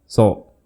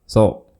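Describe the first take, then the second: The two takes are said the same way.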